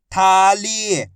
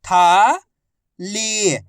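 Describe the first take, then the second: First: थाली joined, both vowels held; blended word. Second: थाली split as था, long pause, ली; syllable by syllable. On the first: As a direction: blend था and ली into थाली without a gap. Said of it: "आपस में मिला के पढ़ दो". (थाली को मिलाकर बोलें) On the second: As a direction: sound out थाली slowly, था rising, ली falling. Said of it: "एक अक्षर की पहचान करो, उनका उच्चारण करो". (थाली को अक्षर-अक्षर अलग बोलें) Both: Shown as a demonstration.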